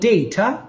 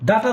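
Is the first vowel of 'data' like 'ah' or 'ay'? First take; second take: ay; ah. First: The first vowel sounds like 'ay'. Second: The first vowel sounds like 'ah'. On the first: The speaker calls it right. "বলেন ডেটা" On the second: The speaker calls it wrong. "ডাটা না"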